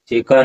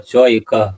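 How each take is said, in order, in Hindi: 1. दोनों शब्द मिलकर एक हो गए हैं। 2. दोनों शब्द अलग-अलग रखे गए हैं। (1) "चेका नहीं होगा"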